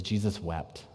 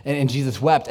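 First: Hushed solemn verse. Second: Said in the usual way. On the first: Acted. Quoting the shortest verse.

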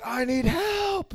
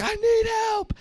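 First: Much higher, slow, drawn-out plea; desperate cry for help. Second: Much higher still, a thin pleading cry; desperate cry for help. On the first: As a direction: stretch it out like a stranded man begging. James Franco calling in the movie. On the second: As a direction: reach up high as if calling into an empty canyon. Same movie line imitated again. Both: Retold or imitated.

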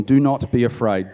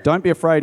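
First: Said in the usual way. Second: Elisha steadies his servant, firm and reassuring; firm reassurance. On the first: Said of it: "Elisha told him". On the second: A narrator's reading. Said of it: "he told him".

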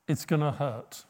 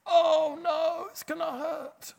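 First: Said in the usual way. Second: Squeaky, high mock panic; hammed-up dread in a much higher voice; mock fear. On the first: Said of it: "He said". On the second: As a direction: whimper it like a scared child. Imitating own fearful reaction.

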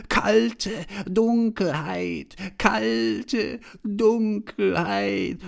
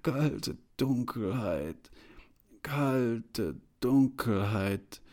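First: Very high, drawn-out, loud mock call; mocking, laughing receptionist. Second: Slow, halting, drawn-out words; feeble stammer. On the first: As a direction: crow each word slowly, high and loud. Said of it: "lachte auch die Rezeptionistin und sagte". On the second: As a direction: grope slowly from word to word. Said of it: "ich stammelte". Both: A narrator's reading.

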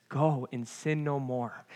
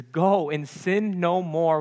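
First: Quiet. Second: Slow smiling warmth on "Go and sin no more"; smiling and joyful. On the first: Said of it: "he says". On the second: Jesus freeing the woman, said with a smile. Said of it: "with a smile on his face and joy in his heart". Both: Shown as a demonstration.

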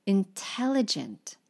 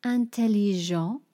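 First: Said in the usual way. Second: Intelligent said as French an-tel-ee-zhan; French pronunciation. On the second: Shown as a demonstration.

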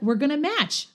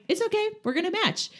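First: High, bright retold cheerfulness; playful. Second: Put-on very high, sing-song kid voice; cheerful reassurance. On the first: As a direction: chirp it like a kid proud of a silly plan. Retelling playful reply to friend. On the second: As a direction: reassure your friend with a silly grin. Retelling cheerful reassurance to friend.

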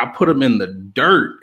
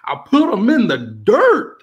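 First: Said in the usual way. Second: Higher, louder mock yell rising on dirt; imitating a yell. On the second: Mimicking the rapper boasting onstage, a mock yell. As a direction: shout it like a boastful taunt. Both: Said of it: "And he yelled at".

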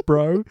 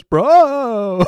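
First: Said in the usual way. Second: Mock vocoder voice, high and loud; stretched, loud fake-electronic bro; vocoder effect. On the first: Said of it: "whenever he says". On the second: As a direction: imitate a vocoded catchphrase, drawn out. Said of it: "a little vocoder effect".

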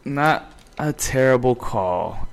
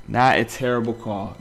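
First: Slow, drawn out. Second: Said in the usual way. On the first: Shown as a demonstration. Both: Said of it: "said twice".

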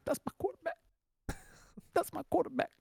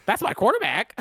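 First: High, teary mock sob of a player; a wailing, choked-up parody of a crying athlete; imitating crying. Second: Mock casual. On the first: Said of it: "He was crying. He was going". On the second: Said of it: "He wasn't over there going".

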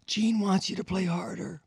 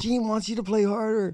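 First: High, quick messenger voice; relaying the boss. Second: Very high put-on messenger voice; relaying the boss. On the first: Retold or imitated. Stagehand relaying Gene's demand, high put-on voice. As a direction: pass on the order in a pinched voice. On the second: Stagehand repeating Gene's demand, very high voice. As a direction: repeat the order, pinched and high. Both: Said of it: "He goes".

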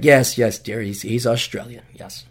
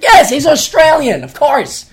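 First: Low, humouring mock agreement; resigned indulgence. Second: High, loud mock exasperation; exasperated retort. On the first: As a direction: placate a partner, dropping away at the end. Resigned answer to girlfriend, retold. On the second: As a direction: burst out as if it's obvious. Exasperated retort to girlfriend, retold.

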